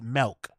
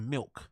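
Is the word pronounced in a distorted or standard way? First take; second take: distorted; standard. First: The word has extra, odd-sounding vowel and L sounds. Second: The word has its ordinary, standard sounds.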